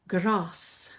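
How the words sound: It is said in a British accent. "in British English, you would hear grass"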